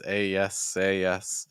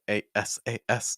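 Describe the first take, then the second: First: The letters are linked with a y sound. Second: Each letter is said separately and choppily. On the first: The speaker calls it right. "what she's saying instead is a yes a yes" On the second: The speaker calls it wrong. "because that's really choppy"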